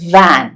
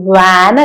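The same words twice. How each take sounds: First: It starts with a v sound with teeth on lip. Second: It starts with a w sound with rounded lips. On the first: The speaker calls it right. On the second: The speaker calls it wrong.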